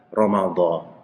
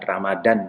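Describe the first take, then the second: First: The middle consonant is an emphatic dh sound. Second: The middle consonant is a plain d sound. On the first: The speaker calls it right. "Yang ada Ramadan, pakai dha" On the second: The speaker calls it wrong. "Ramadan dal"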